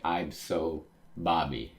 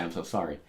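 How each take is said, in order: First: Slow "I'm so Bobby", SORRY garbled into Bobby; swollen-lip speech. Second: Said in the usual way. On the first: Shown as a demonstration. Reader mimics Luffy's smacked, swollen lip, slow garbled "I'm so Bobby". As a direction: say "I'm so Bobby" slowly, as if through a fat lip. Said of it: "he's swollen up his lip, he got smacked". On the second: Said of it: "that's supposed to say".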